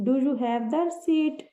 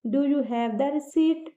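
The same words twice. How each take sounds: First: Very slow repeat of the sentence. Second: Very slow, every word spaced out; slow example sentence. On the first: Teacher repeats the example sentence slowly to the class. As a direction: say it again slowly and clearly. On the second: Teacher reads the example sentence slowly to the class. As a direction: read it out slowly for learners. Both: Shown as a demonstration. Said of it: "example देखिए".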